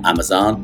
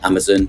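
First: The name is said in the listener's overseas accent. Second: The name is said in a British accent.

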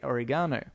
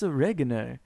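First: The word is said the Australian way. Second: The word is said the American way. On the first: "Australia who say oregano" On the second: "But in America, that's how everybody pronounces it"

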